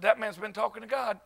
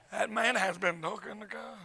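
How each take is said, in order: First: Soft, dry realization; retold hushed admission; mock awed aside. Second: Very soft, measured repeat with full HAS; hushed comic conviction; mock solemn awe. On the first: His awed reaction, played for laughs. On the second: Repeats the reaction with more weight.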